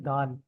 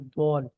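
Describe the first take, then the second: First: The vowel is said plain and open. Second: The vowel is said with rounded lips. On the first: "एक है दाल।" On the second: "दाल को थोड़ा सा आपने गोल करके पढ़ना है"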